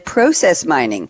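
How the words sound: It is said with a Canadian pronunciation.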